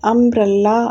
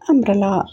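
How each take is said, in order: First: The word is said heavily, with a strong middle. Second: The word is said lightly, with a soft middle. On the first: The speaker calls it wrong. "அம்ப்ரல்லா அப்படின்னு சொல்லாமல்" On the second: The speaker calls it right. "லைட்டாக சொல்லுங்கள்"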